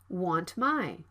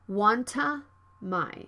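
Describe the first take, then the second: First: The T is unreleased before the M. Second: An extra vowel follows the released T. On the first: The speaker calls it right. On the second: The speaker calls it wrong.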